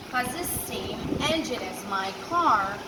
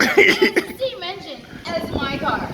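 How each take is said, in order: First: Said in the usual way. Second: Louder, higher, drawn-out boast; imitating the friend's excited version. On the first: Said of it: "Yeah, man". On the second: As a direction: brag eagerly about the engine. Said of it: "you're like".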